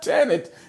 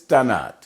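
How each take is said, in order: First: The last syllable is said with an 'it' sound. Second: The last syllable is said with an 'at' sound. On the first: The speaker calls it wrong. "but it's not Tanit" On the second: The speaker calls it right. "it's Tanat"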